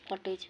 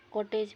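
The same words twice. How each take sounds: First: "कॉटेज" with an open aa; corrected pronunciation. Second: "कॉटेज" with an o and j; wrong rounded o in "कॉटेज"; mispronounced cottage. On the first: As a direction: say "कॉटेज" as kaa-tech. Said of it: "कॉटेज हो". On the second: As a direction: say "कॉटेज" as ko-tej. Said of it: "कॉटेज नहीं". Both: Shown as a demonstration.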